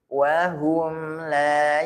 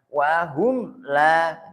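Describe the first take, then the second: First: The m sound flows smoothly into the next word. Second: The m sound is jerked and cut off abruptly. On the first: The speaker calls it right. "tapi wahum la yash" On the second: The speaker calls it wrong. "jangan sampai dihentakan ... Bukan wahum la"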